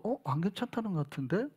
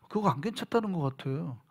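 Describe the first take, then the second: First: Softer, wondering aloud; quiet doubtful remark. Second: Soft, hushed doubt; quiet doubtful remark. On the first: Speaking quietly. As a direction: pastor doubting a church member's 괜찮아요, softly puzzled. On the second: Quietly concluding. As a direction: pastor telling his friend the member was not fine, softly. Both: Retold or imitated. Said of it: "라고 내가 얘기를 한 거예요".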